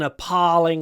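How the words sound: It is said with an American accent. "Maybe it can cope with American pronunciation better"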